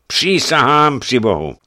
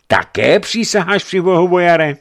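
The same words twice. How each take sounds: First: High, loud oath falling at the end; emphatic boyar taking an oath; solemn oath. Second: Very high, loud questioning challenge; challenging question. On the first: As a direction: swear it emphatically, as a statement. Boyar swears his innocence. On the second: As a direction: throw the oath back as a question. Bishop challenges the boyar's oath. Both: A narrator's reading.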